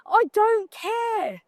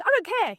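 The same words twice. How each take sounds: First: Slow, drawn-out I don't care. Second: Said in the usual way. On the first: Acted. Shrugging off a bad review to the audience, slow and drawn out. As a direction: stretch every word of I don't care out lazily.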